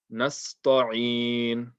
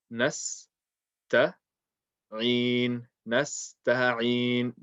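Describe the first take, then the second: First: "Nasta'in" with a thick, heavy ta before a long ending. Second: "nasta'in" slowly, in parts, with a light ta. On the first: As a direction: overemphasize the ta in "Nasta'in". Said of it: "made it heavy". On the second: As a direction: keep the ta thin and light in "nasta'in". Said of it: "Keep the ta nice and light". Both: Shown as a demonstration.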